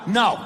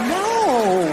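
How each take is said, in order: First: It is said firmly, as a real refusal. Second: It is said playfully, as a teasing refusal.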